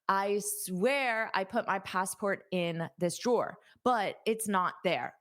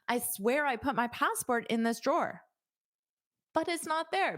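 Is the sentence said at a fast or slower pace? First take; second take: slower; fast. First: The sentence is said at a slower pace. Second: The sentence is said at a fast pace.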